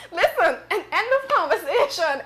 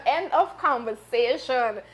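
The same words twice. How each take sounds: First: Laughing while cutting it off; giggling "end of conversation". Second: "End of conversation" said slowly and firmly with a falling finish. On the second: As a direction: put a final, slow full stop on "End of conversation". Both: Real, not acted. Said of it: "I can't".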